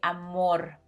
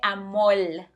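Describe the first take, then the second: First: The final consonant is pronounced as an R. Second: The final consonant is pronounced as an L. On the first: This is the usual way of saying it. "en vez de amor" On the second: This is the Puerto Rican way of saying it. "instead of sounding like R, it sounds like L"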